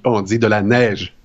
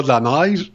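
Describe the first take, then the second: First: "neige" with a clear "è" sound; "neige" said properly as "nèj"; correct pronunciation. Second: "neige" said as "naj", open a; "neige" with the vowel flattened to "a"; wrong pronunciation. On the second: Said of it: "on dit pas de la neige". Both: Shown as a demonstration.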